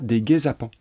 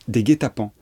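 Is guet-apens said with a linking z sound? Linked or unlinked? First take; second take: linked; unlinked. First: A z sound links guet to apens. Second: No z sound links guet to apens. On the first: The speaker calls it wrong. "On ne dit pas des guet-apens" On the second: The speaker calls it right. "On dit bien des guet-apens"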